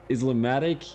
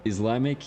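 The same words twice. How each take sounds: First: "Islamic" stretched to "Islamatic"; "Islamic" said as four syllables, "Islamatic"; longer word form. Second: Said in the usual way. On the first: Shown as a demonstration. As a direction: say "Islamic" with an extra syllable, "iz-la-MA-tic". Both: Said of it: "there's not too much of a difference".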